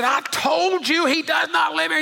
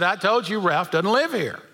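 First: Much higher angry shout; really mad. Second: A touch of annoyance, kept in the normal voice; mildly irritated. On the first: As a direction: yell it down the phone, fed up. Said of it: "the guy got really mad". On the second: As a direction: lightly put out, only a little impatient. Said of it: "got a little more irritated". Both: Retold or imitated.

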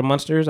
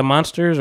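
First: Monsters with MON like "mun"; "uh" first vowel. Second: Monsters with MON like "mahn"; open first vowel. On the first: Offering another way to say it, Monsters with "uh". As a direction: say Monsters as "munsters", short "uh" first. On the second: Unsure of the drink's name, Monsters said with "ah". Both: Shown as a demonstration. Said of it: "I don't know how you pronounce it".

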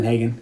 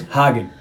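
First: "Lindhagen" said lin-HAY-gen, stretching the "ay"; mispronounced name. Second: "Hagen" said HAH-gen, with an open "ah"; corrected name. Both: Retold or imitated.

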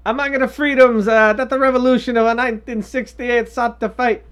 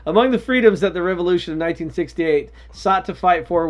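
First: High, loud mock-Italian pope; bad Italian accent. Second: Said in the usual way. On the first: Reading the pope's quote aloud, bad Italian accent. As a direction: read it out in a hammed-up Italian accent. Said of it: "quotes are gonna be in my bad Italian accent". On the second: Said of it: "fuck that accent".

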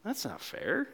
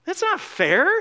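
First: Muttered, much softer complaint; sulking older brother. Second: Higher, louder whiny protest rising at the end; older brother protesting. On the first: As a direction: grumble it under your breath like a sulky sibling. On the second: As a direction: burst out with the complaint. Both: Acted. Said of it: "Maybe you relate with the older brother".

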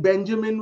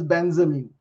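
First: Said in the usual way. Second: Benjamin said as "BEN-za-min", with z for j; mispronounced Benjamin. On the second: Retold or imitated. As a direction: turn the j in Benjamin into a z. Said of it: "Benjamin was pronounced as Benjamin".

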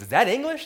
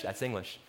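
First: "English" as a high, louder question; high, loud query on "English"; puzzled question. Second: "English" as a low, soft statement; low, softer statement ending on "English"; matter-of-fact answer. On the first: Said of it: "She goes". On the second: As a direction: answer "That's English" quietly, pitched well down. Answering the retold question. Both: Retold or imitated.

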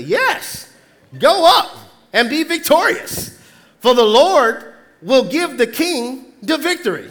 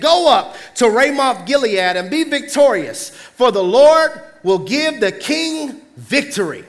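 First: Drip sarcasm as you echo the prophets; sarcastic. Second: Said in the usual way. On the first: Acted. Micaiah sarcastically echoing the false prophets to Ahab. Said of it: "replied sarcastically".

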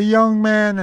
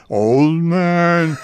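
First: Lightly voiced young man, pitched higher. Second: Drawn-out old man impression. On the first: Radio hopeful showing his audition voices, light young man voice. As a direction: lift it into a hint of a young man. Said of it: "I did the young man". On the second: Radio hopeful showing his audition voices, old man voice. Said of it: "I did the old man". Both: Shown as a demonstration.

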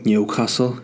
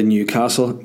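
First: Put-on Newcastle upon Tyne accent. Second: Said in the usual way. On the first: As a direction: say it with a mock Geordie accent. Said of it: "why I did that accent".

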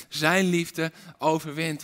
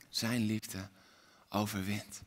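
First: Said in the usual way. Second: Much softer and lower; hushed. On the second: Acted. Preacher closing the refrain, hushed. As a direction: let it land softly.

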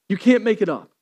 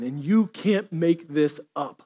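First: Said in the usual way. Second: Slow, softer delivery, letting it sink in; drawn out quietly with weight; slow and hushed. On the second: Shown as a demonstration.

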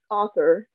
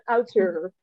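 First: "author" said the English way, AW-thor; English pronunciation. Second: Auteur said the French way, o-TEUR; "Auteur" pronounced as the French word auteur; French pronunciation. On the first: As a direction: correct "author" as the English word. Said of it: "Au-, author". ("author" op z'n Engels uitgesproken, als AW-thor) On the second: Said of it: "op zijn Frans". ("Auteur" op z'n Frans uitgesproken, als o-teur) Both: Real, not acted.

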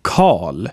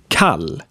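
First: Karl as 'kaal', vowel long and dark. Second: Kall with a brief open 'a'; short A. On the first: Teacher giving the last example, long A in Karl. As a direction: draw out the back 'ah' in Karl. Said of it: "Here are some more examples". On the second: Teacher giving the last example, short A in kall. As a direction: cut the vowel in kall short. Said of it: "different versions of A". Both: Shown as a demonstration.

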